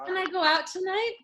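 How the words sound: It is said sweetly, trying to charm mom.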